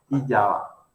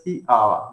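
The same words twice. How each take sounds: First: "i, yaba" with a y sound joining i to "aba"; wrong y-glide form. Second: "ji, aba" with the first a of "aba" stressed. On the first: Teacher showing students the form to avoid, y-glide in "yaba". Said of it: "no es i, yaba". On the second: Teacher showing the correct form to students, stressed "aba" after "ji". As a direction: say "ji, aba" as two parts, leaning on the opening a of "aba". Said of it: "lleva acento, es tónica". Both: Shown as a demonstration.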